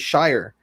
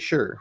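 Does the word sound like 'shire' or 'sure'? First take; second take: shire; sure. First: It rhymes with 'fire', a full long vowel. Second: It is reduced, sounding like the word 'sure'. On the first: The speaker calls it wrong. "you don't actually say Shire in a lot of places" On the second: The speaker calls it right. "Like you got to say sure"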